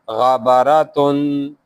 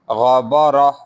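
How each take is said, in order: First: The word ends with a full 'tun' sound. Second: The word ends softly with an 'h' sound. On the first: The reader continues without stopping. "If you continuously reading, then you will read it as ghabaratun" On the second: The reader stops on this word. "If you stop, you if you stay, then you will read it as ghabarah"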